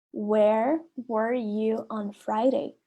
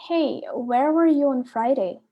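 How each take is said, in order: First: Very slow, word by word for learners; slow repeat. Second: Said in the usual way. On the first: Shown as a demonstration. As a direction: spell it out slowly so they can repeat. (devagar, palavra por palavra) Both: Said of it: "A letra A fala assim".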